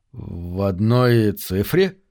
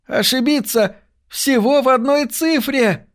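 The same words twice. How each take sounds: First: Low, very slow, dumbfounded; stunned echo question. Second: Very high, amazed outcry; excited exclamation. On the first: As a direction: repeat it haltingly, as if the floor dropped away. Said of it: "ошарашенно переспросил он". (ошарашенно, медленно и низко) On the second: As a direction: exclaim at an incredible near miss, pitch held high. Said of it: "воскликнул О'Лири". (изумлённый возглас высоким голосом) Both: A narrator's reading.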